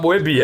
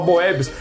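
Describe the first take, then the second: First: The name ends without any s sound. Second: The name ends with an audible s sound. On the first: It is the French pronunciation. The speaker calls it right. "Mas você tem que falar Moebi" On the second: It is the habitual pronunciation that French speakers do not understand. The speaker calls it wrong. "A gente chega lá na França, você fala Moebius"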